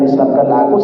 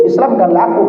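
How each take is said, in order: First: Said in the usual way. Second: A mother's voice lifted high, begging; mother's plea. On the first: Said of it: "karena dia spontan". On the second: Retold or imitated. Dying mother asks son to convert her, pleading lightly. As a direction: mimic the dying mother asking him.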